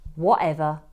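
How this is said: It sounds flat, rude and dismissive. The speaker has stopped listening and dismisses the other person. "what a teenager may say when they've stopped listening to their parents"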